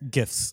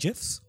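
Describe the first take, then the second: First: The word begins with a hard G sound. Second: The word begins with a J sound. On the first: "to the other, to you oldies out there" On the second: "why is it a J?"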